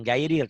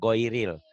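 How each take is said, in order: First: The first vowel sounds like a plain 'a'. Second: The first vowel sounds rounded, like 'o'. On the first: The speaker calls it wrong. "Bukan gairil" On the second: The speaker calls it right. "tapi goiril. Ada unsur O-nya"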